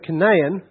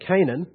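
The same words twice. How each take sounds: First: The name is said in a non-American way. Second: The name is said in an American way.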